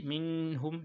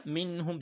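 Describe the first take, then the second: First: "minhum" with the n dragged out before h; wrong emphasised nun. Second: Higher "minhum", n let go promptly into the h; nun without emphasis. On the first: Teacher showing what to avoid, over-held n in "minhum". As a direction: hang on the n of "minhum". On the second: Teacher modelling the ha rule, unemphasised n in "minhum". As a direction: keep the n of "minhum" unforced. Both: Shown as a demonstration. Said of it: "Do not say minhum".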